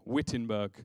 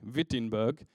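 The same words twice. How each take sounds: First: The word begins with a w sound. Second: The word begins with a v sound. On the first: "you spell it with a W" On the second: "when you say it with a V"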